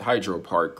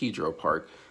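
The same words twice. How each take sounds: First: It is said the American way. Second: It is said the Ukrainian/Russian way.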